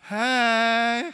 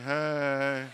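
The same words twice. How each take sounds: First: It is said with lively, loud energy. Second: It is said weakly, with tired low energy.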